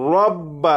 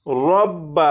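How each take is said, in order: The two takes are said the same way.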